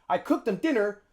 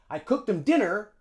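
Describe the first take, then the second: No difference in how they are said.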